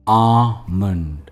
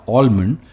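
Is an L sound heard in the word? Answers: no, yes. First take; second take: no; yes. First: The word is said without an L sound. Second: The word is said with an L sound. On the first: The speaker calls it right. "इन्हें कहते हैं आमंड" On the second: The speaker calls it wrong. "या ऑलमंड"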